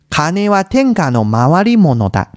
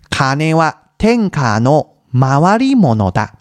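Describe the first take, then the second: First: The phrase is said at a faster pace. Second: The phrase is said at a slower pace.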